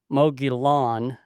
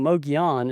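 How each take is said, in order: First: The double L is said as an L sound. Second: The double L is said as a Y sound. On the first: The speaker calls it wrong. "it says Mogollon" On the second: The speaker calls it right. "instead of saying Mogollon"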